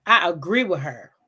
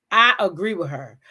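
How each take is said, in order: Both takes have the same delivery.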